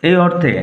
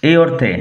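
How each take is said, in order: The two takes are said the same way.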